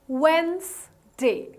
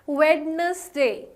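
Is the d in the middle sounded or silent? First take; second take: silent; sounded. First: The middle d sound is silent. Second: The middle d sound is pronounced. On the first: The speaker calls it right. "The D here is more or less silent" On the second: The speaker calls it wrong. "that is not the most appropriate way to pronounce it"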